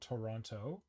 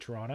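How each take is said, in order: First: It is said the way it is written. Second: It is said the way locals say it. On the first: "is spelled Toronto" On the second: "if you come from the city, you say Toronto"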